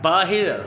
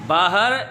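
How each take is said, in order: First: The second syllable has an i vowel. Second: The second syllable has an a vowel. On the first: The speaker calls it wrong. "बाहिर गलत है" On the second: The speaker calls it right. "बाहर दुरुस्त है"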